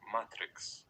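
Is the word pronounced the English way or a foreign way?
foreign. The word is said with non-English vowels. "in my language, you would say"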